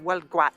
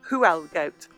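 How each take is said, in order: First: The name begins with a 'w' sound. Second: The name begins with an 'h' sound. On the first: The speaker calls it right. "the pronunciation of that is Welgwat, with a good spit out the T at the end" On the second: The speaker calls it wrong. "it looks like Huelgoat"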